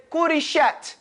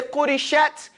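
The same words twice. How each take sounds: First: "qurishat" drawn out, final t released with a whisper. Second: "qurishat" with the final t breaking off; mistaken pronunciation. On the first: Shown as a demonstration. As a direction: say "qurishat" slowly, letting the t whisper out. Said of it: "that whisper on ta". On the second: Retold or imitated. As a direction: say "qurishat" with a broken-off ending. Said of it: "it breaks".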